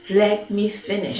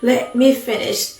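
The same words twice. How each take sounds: First: It is said at a normal, softer volume. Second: It is said louder, as if shouting.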